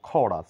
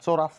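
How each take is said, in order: First: The word begins with a k sound. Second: The word begins with a ch sound. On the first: The speaker calls it right. "বলবো খরাস" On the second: The speaker calls it wrong. "চরাস না বলে"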